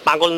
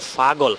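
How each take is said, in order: First: The word begins with a plain P sound. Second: The word begins with an F sound. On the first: This is the standard form of the word. "মূল শব্দটা হচ্ছে পাগল" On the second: This is a regional way of saying the word. "তারা পাগলকে পাগল না বলে বলে ফাগল"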